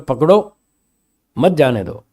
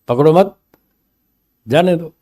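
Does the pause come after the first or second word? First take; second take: first; second. First: The pause comes after पकड़ो. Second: The pause comes after मत.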